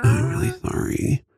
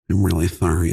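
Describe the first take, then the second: First: Lispy whisper; leaning in to whisper. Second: Said in the usual way. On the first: Pretend. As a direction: whisper with a lisp. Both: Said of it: "The more I whisper".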